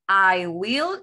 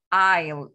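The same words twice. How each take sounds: First: "I will" as two words, louder, rising on "will"; long form. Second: "I'll" as one loud falling syllable; short form. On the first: Teacher contrasts for students, "I will" in full, two words. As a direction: stretch "I will" fully, lifting the end. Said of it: "en forma larga". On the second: Teacher contrasts for students, "I'll" contracted to one syllable. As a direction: punch "I'll" out as a single word. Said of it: "en forma corta". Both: Shown as a demonstration.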